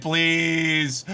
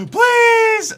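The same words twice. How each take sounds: First: Said in the usual way. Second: High, loud gasping "Please"; desperate plea. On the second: Real, not acted. Streamer begging the game, desperate. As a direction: beg the game with a gasp.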